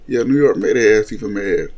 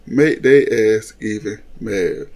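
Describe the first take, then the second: First: Said in the usual way. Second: Slow, each word leaned on; slow emphatic repeat. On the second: Shown as a demonstration. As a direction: drag out "Make their ass even mad" slowly.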